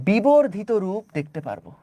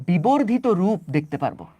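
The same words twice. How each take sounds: The two takes are said the same way.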